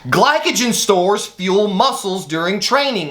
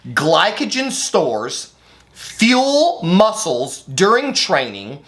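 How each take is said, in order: First: It is read at a normal, quicker pace. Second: It is read slowly and deliberately.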